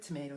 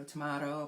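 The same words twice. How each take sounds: First: "tomato" with AY in the middle, tuh-MAY-toh; "tomato" with a long A; first pronunciation. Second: "tomato" with AH in the middle, tuh-MAH-toh; "tomato" with a broad A; alternative pronunciation. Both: Shown as a demonstration. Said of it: "it doesn't matter how you pronounce it".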